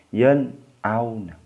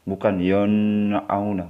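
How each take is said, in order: First: The n sound is pronounced clearly and distinctly. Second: The n sound is blurred and not distinct. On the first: The speaker calls it right. "harus jelas atau harus terang" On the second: The speaker calls it wrong.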